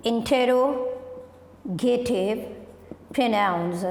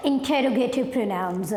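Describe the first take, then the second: First: "interrogative pronouns" drawn out very slowly with a pause between words; slow dictation. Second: Said in the usual way. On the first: Shown as a demonstration. Teacher writing the heading "interrogative pronouns" on the board, slow dictation.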